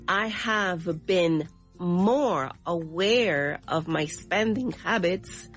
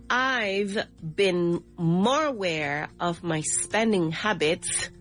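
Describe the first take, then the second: First: The subject and verb are said as separate words. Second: The subject and verb are joined in a contraction.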